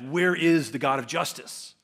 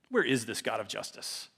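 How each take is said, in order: First: It sounds pleading and earnest. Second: It sounds flippant and dismissive.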